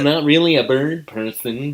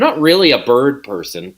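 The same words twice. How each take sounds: First: It is said in an imitated put-on voice. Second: It is said in an ordinary natural voice. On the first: "Say it" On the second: "I had to really work hard to not say it in his voice"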